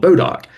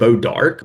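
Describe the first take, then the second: First: It ends in a clipped doc sound: bo-doc. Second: It begins with a b sound: bo-dark. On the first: This is the local North Mississippi form. "we in Mississippi, or at least in North Mississippi, always heard it called Bodoc" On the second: This is the later form the name became. "eventually became Bodark"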